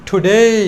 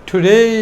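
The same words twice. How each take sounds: No difference in how they are said.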